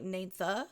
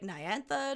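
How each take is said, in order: First: A single vowel follows the N. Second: Two separate vowels follow the N.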